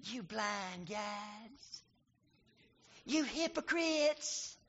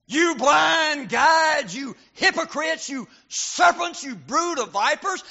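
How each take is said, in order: First: Much softer, slow timid rebuke; meek mild rebuke. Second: Higher, louder, slow thundering rebuke; fierce shout. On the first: Preacher showing the wrong soft way Jesus spoke, meek and quiet. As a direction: say it meekly, barely above a breath. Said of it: "I can't picture him saying". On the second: Jesus rebuking Pharisees as the preacher hears it, fierce shout. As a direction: hurl each insult like a blow. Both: Shown as a demonstration.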